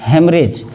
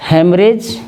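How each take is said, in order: Both takes have the same delivery.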